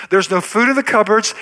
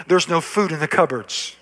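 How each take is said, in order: First: Second take lifted and pushed for emphasis; emphatic repeat. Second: Said in the usual way. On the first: Shown as a demonstration. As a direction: press the repeat harder and higher.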